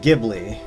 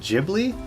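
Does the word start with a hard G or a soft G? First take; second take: hard G; soft G. First: The word begins with a hard G sound. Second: The word begins with a soft G sound. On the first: "I used to pronounce it Ghibli" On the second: "that it was like a soft G"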